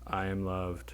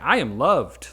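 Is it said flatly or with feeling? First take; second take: flatly; with feeling. First: It is said flatly, without feeling. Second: It is said with strong feeling.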